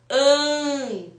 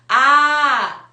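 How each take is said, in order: First: The vowel is nasal, air through the nose. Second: The vowel is oral, without nasal resonance.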